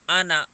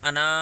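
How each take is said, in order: First: The final vowel is kept short. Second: The final vowel is drawn out long. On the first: The speaker calls it right. "अना पढ़ना" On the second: The speaker calls it wrong. "उसको अना नहीं पढ़ना"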